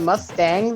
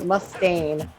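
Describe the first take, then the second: First: The name ends with an 'ang' sound. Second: The name ends with an 'ain' sound. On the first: The speaker calls it wrong. "I think I've been pronouncing it Mustang this whole time" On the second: The speaker calls it right.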